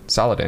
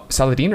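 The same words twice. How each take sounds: First: Saladin with a short, unstressed last syllable; chosen pronunciation. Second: Saladin ending in a long "deen"; alternative pronunciation. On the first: Host settles the sultan's name, Saladin with short "-din". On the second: Host unsure of the sultan's name, Saladin said with "-deen". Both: Shown as a demonstration. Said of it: "It's definitely Saladin".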